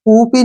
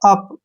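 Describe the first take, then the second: First: It is two syllables starting with a long 'oo'. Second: It is one syllable with a short 'uh' vowel. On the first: The speaker calls it wrong. "ना कि ऊपी नहीं पढ़ना है" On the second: The speaker calls it right. "अप क्या पढ़ेंगे इसको?"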